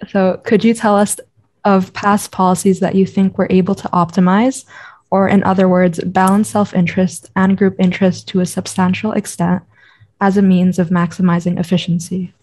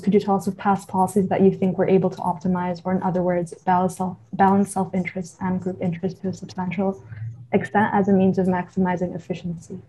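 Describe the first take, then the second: First: The question is read slowly. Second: The question is read quickly.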